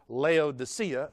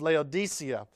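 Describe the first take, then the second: First: It is said in a Southern US accent. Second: It is said in a standard accent.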